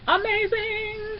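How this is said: It is said in a put-on celebrity voice.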